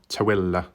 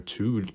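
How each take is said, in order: First: It is said as three syllables, 'to-willa'. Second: It is said as one syllable, like 'tool'. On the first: The speaker calls it right. "But it's not like that" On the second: The speaker calls it wrong. "I was just like saying it as it was read uh, with a double O"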